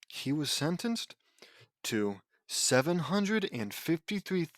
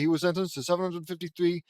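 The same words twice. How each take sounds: First: It is read at a slower pace. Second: It is read at a faster pace.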